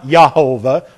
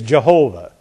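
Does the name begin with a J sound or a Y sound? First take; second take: Y sound; J sound. First: The name begins with a Y sound. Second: The name begins with a J sound. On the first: The speaker calls it wrong. "It is not Yahovah or Yahweh. That is a miss" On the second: The speaker calls it right. "The proper way is Jehovah"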